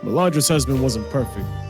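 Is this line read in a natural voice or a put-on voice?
natural. It is read in a plain, natural voice. The speaker calls it wrong.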